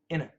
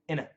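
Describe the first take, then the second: First: The word is said fast, reduced to inna. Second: The word is said fast, reduced to inna.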